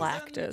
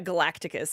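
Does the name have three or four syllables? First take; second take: three; four. First: The name has three syllables, ending in -tus. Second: The name has an extra syllable before -tus. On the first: The speaker calls it right. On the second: The speaker calls it wrong. "There's no I in his name"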